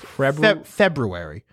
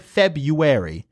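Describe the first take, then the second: First: The word is said in its careful, full form. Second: The word is said in its casual, everyday form. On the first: This is the technically correct pronunciation. "It's technically pronounced February" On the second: This is how it is usually said day to day. "I always say February"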